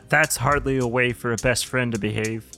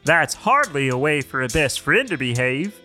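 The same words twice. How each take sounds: First: It is said in an unhappy tone. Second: It is said in a happier tone.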